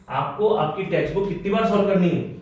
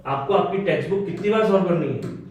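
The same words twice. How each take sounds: The two takes are said the same way.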